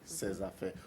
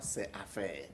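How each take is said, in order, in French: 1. Un son z lie les deux mots. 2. Aucun son z ne lie les deux mots. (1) "quand je dis ces affaires, vous voyez" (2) "on ne dira pas ces affaires"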